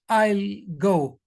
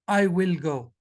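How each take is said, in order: First: The first two words merge into one syllable. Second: Each word is said fully and separately.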